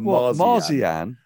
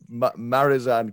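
First: The z sound comes before the i sound. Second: The z sound comes after the i sound. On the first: The speaker calls it wrong. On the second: The speaker calls it right.

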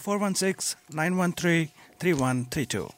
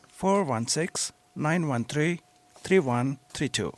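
First: The number is said at normal speed. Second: The number is said slowly.

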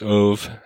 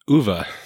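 First: The name is said the common anglicized way. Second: The name is said the native Swedish way. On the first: The speaker calls it wrong. "which most people pronounce Ove" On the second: The speaker calls it right. "I got the privilege of hearing it pronounced Uwe"

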